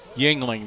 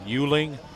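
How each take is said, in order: First: The name sounds like 'Yingling', with an 'ng'. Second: The name sounds like 'Yuling', without the 'ng'. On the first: The speaker calls it right. "there we go. That's what it is" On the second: The speaker calls it wrong. "I'll say it wrong"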